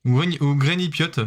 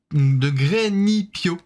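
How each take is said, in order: First: "Grenipiote" with a -piote ending, tried as a second guess; trying another pronunciation. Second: "Grenipio" said slowly, ending in -pio; unsure pronunciation. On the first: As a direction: correct yourself to "Grenipiote". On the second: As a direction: spell out "Grenipio" slowly and carefully. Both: Real, not acted. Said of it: "Je sais pas comment ça se prononce".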